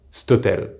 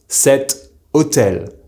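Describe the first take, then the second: First: 'stotel' as sto-TEL, cet cut to 'st'; contracted form. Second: 'cet hôtel' with the vowel of cet sounded; careful full form. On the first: Teacher showing how cet hôtel is pronounced, contracted stotel. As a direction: run 'stotel' into one word with no first vowel. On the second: Teacher giving an example with this hotel, cet hôtel in full. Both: Shown as a demonstration. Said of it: "being pronounced".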